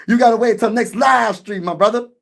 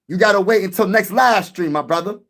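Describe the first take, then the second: First: Raised, teasing call-out; playful shout. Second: Said in the usual way. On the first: Acted. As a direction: holler it at the fan for emphasis. Repeating the same line louder.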